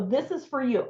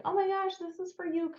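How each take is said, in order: First: Too aggressive. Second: High, soft "oh my gosh"; gentler gushing. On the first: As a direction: push it on them a bit too firmly. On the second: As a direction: coo it sweetly high, not pushy. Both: Shown as a demonstration. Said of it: "Maybe not quite that aggressively".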